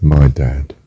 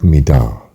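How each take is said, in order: First: Said in the usual way. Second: Light Scouse "Me da." with a short flat "me"; a hint of Scouse on "Me da.". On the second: Shown as a demonstration. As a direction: say "Me da." the Liverpool way. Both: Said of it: "Instead of".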